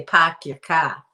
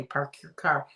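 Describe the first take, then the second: First: Loud, drawn-out Boston accent; put-on Boston "pahk yah cah". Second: Said in the usual way. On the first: Shown as a demonstration. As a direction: drop the Rs like a Bostonian. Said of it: "They say". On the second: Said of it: "That's how they say".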